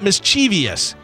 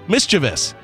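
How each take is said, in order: First: The word is said with an extra sound added. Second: The word is said without any added sound. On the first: The speaker calls it wrong. "Not mischievous. You're actually adding extra letters that aren't there" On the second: The speaker calls it right. "It's mischievous"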